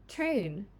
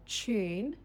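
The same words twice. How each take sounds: First: No 'y' sound comes before the vowel. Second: A 'y' sound comes before the vowel. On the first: "then the American version" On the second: "the Australian or British pronunciation first"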